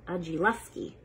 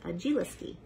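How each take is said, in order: First: Agiluski said as "uh-jee-LUS-kee"; Agiluski, "uh" sound in the third syllable; corrected pronunciation. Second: Agiliski said as "uh-JEE-lis-kee"; softer Agiliski, "ih" in the third syllable; first-try pronunciation. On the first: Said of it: "Actually, Agiluski". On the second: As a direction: repeat Agiliski softly with "lis" before "kee". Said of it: "is pronounced Agiliski". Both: Shown as a demonstration.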